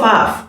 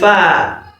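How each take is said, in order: First: It ends with an extra f sound. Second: It ends on an open vowel. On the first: The speaker calls it wrong. "Some people call it Faf. No, it's not Faf" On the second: The speaker calls it right. "It is Fa"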